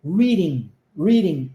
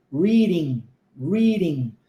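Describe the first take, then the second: First: Reading with a full d sound and ng ending; reading with plain d; clear d in reading. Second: Reading with the d turned into a quick r tap, final g dropped; reading with flap r; flapped d in reading. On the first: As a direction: say reading with a real d. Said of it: "pronunciá-la reading com o som de D". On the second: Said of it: "D sendo transformado em R". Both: Shown as a demonstration.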